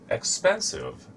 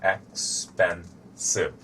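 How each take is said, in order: First: Word demo, high start. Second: "expensive" said very slowly, ex-pen-sive, each syllable clear; slow syllable demo. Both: Shown as a demonstration. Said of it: "has three syllables".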